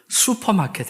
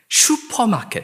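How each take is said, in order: First: The first syllable sounds like 'su'. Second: The first syllable sounds like 'shu'. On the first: The speaker calls it right. "사실 이것도 슈퍼마켓 해야 맞고" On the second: The speaker calls it wrong. "우리 한국에 가면 슈퍼마켓"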